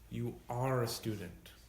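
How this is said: It is said with emphasis, reassuringly.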